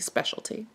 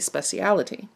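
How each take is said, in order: First: The word is said with fewer syllables. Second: The word is said with more syllables. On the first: This is the American form. "Here in the United States, we say specialty" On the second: This is the English form. "There, they'll say speciality"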